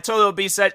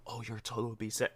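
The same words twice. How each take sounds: First: Loud, raised-pitch cashier, amused; pointedly loud total; talking loud. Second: Very soft, lower cashier voice; timid murmur of the total; mock deferential quiet. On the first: Retold or imitated. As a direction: announce it over someone's phone call. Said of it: "I'm talking loud". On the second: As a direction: imitate a cashier hushed for a phone talker. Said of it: "If you expect to be like".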